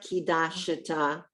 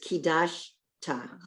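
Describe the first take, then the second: First: The word runs together without a break. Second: A syllable break comes before 'ta'. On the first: The speaker calls it wrong. "it's not kidashta" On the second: The speaker calls it right. "it's kidash ta"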